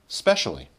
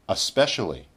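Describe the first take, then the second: First: It is said in its most reduced form. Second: It is said in a somewhat reduced form.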